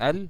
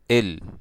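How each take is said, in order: First: The article is said as 'al', standard style. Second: The article is said as 'il', Egyptian style. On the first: "Instead of saying al" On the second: "This is how we pronounce that article in the Egyptian accent"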